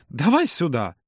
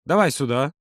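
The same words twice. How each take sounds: First: Slow, insistent request. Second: Short, matter-of-fact order; commanding. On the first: Юра ends his warning about the cut finger, gently insistent. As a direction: draw it out to close the argument. Insists after cautionary tale. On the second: Юра orders Володя to give his cut finger, mildly commanding. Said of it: "приказал, доставая ватный диск". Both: A narrator's reading.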